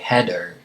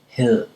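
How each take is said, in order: First: The middle consonant is a hard D. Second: The middle consonant is a soft D. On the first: The speaker calls it wrong. "It's not a hard D, so you wouldn't say header" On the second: The speaker calls it right. "just before your tongue touches your teeth"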